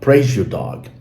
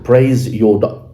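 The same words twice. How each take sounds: First: The z and y blend into a zh sound. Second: The z and y are said as separate sounds.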